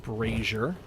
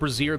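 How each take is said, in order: First: It is said with a plain English pronunciation. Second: It is said with a French-sounding pronunciation. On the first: The speaker calls it right. "which I'm trying to say correctly" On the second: The speaker calls it wrong. "it looks like it's supposed to be a French word"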